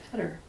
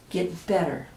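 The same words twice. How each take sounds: First: Better said much softer, trailing off; soft fade. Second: Said in the usual way. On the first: A narrator's reading. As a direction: let better fade away. Repeated phrase fading out.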